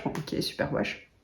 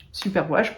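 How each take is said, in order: First: Sceptical mutter. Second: Said in the usual way. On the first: Real, not acted.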